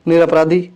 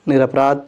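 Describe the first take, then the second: First: "निरपराधी" with a long ई at the end; wrong form with final ई. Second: "निरपराध" ending on a short sound; correct form without ई. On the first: ("निरपराधी" अंत में दीर्घ ई) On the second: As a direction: say "निरपराध" with no ई at the end. ("निरपराध" बिना ई के) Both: Shown as a demonstration. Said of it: "ई की मात्रा नहीं होनी चाहिए".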